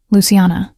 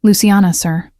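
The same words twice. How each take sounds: First: Lingering on "Luciana" as if tasting it; savoring a name. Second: Said in the usual way. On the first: A narrator's reading. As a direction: roll "Luciana" on the tongue like wine. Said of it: "He tested my name like he was tasting wine". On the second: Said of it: "He tested my name".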